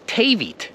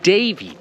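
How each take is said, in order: First: Both d sounds are said as voiceless t. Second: Both d sounds are said as voiced d. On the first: The speaker calls it wrong. "you would be saying Tavit" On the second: The speaker calls it right. "You're saying David"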